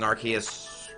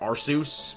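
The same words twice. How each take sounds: First: The name's ending does not rhyme with Seuss. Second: The name's ending rhymes with Seuss.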